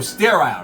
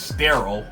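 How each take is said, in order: First: The word is said in an island accent. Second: The word is said in a plain American accent. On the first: "he's from the islands... That's pretty much how he talked" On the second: "the way I would probably say the word is sterile"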